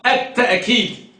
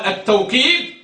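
First: التأكيد with a glottal catch, ta'-keed; with hamza. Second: التوكيد with a w glide, taw-keed; with waw. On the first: Teacher shows the other reading, hamza pronunciation. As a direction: stop the breath after ta in التأكيد. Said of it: "يعني يقرأ بالهمزة". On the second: Teacher shows one of the readings, waw pronunciation. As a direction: say التوكيد with waw in place of the catch. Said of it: "يقرأ بالواو". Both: Shown as a demonstration.

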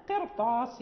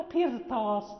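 First: قرطاس with a thick, full raa before the ط; heavy raa. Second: قرطاس with the raa made thin after the kasra; wrong thin raa. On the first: Teacher giving students the correct reading, heavy raa. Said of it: "مفخمة". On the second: Teacher showing the students the wrong reading, thin raa. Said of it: "يعني هنا لا نقول". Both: Shown as a demonstration.

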